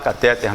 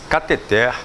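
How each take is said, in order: First: The stress is on the second-to-last syllable. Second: The stress is on the last syllable. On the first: The speaker calls it wrong. "Se fosse catéter, teria acento, ela seria paroxítona" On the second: The speaker calls it right. "A pronúncia correta"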